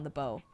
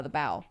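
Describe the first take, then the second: First: Bow said like "boh"; bow rhyming with "go"; misread. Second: Bow said like "bough"; bow rhyming with "cow"; corrected. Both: Shown as a demonstration. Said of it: "uh, the bow".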